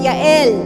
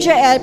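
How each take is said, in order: First: The name begins with a Y sound. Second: The name begins with a J sound. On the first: "pronounced Yael pala" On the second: "And the name Jael"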